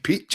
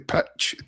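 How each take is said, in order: First: It is said in a French accent. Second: It is said in his normal Scottish accent.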